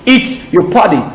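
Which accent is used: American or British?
American. It is said in an American accent. "Accent américain"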